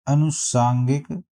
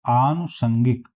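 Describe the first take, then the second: First: अनुसांगिक slowly, short a at the start, long saan; अनुसांगिक slow with rising end; wrong option. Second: आनुषंगिक with long opening aa, short san; आनुषंगिक, stretched first vowel, short third syllable; correct pronunciation. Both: Shown as a demonstration. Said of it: "इसका सही answer हो जाएगा".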